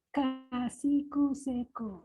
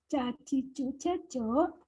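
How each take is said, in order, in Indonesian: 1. Suku katanya diawali dengan bunyi k dan s. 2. Setiap suku kata diawali dengan bunyi ch. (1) "maka bacanya" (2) "kalau tulisannya"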